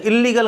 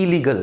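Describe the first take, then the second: First: इल्लीगल with a held double l; wrong doubled l. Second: इलीगल short, with one light l; correct single l. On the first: Teacher mimics the wrong way for students. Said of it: "इल्लीगल काम नहीं". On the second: Teacher corrects to a single l. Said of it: "इल्लीगल काम नहीं, इलीगल". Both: Shown as a demonstration.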